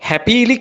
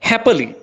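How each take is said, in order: First: The second vowel is a long 'ee'. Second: The second vowel is short and reduced. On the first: The speaker calls it wrong. "අපි මේක වැඩිපුරම කියවන්නේ කොහොමද? හැපීලි කියලා" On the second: The speaker calls it right. "ඔයා මේක කියවන්න ඕනේ හැපලි අන්නේ විදියට"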